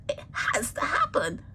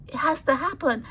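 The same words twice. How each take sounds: First: Unvoiced whisper, said as a hushed certainty. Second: Said in the usual way. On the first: Real, not acted. Speaker telling mourners it is inevitable, whispered. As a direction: whisper it like an undeniable truth.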